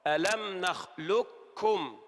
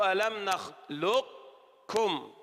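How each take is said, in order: First: "ألم نخلقكم" with the ق fully turned into ك, slow; full merge. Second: "ألم نخلقكم" slowly, a trace of the ق kept before ك; partial merge. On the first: Teacher shows the complete merge to the student, slow recitation. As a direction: say "نخلقكم" with only a ك, no ق. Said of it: "أدغمت إدغاما كاملا". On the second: Teacher models the partial merge for the student, slow. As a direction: stretch "نخلقكم" keeping a hint of ق. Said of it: "إذا كان ناقصا نقول". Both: Shown as a demonstration.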